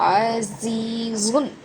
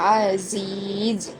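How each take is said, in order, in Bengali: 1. শব্দটি 'un' ধ্বনি দিয়ে শেষ হয়। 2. শব্দটি শুধু 'z' ধ্বনি দিয়ে শেষ হয়। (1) "বানান করার সময় দুই পেশটা বলা যাবে" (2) "এখানে দুই পেশ বাদ দিও, এখানে যজম হবে"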